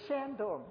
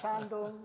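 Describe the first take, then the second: First: It is said with a Shandong regional accent. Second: It is said in standard Mandarin pronunciation. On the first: This is how the parents said it. "It was Shandong" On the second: This is not how the parents said it. "not Shandong"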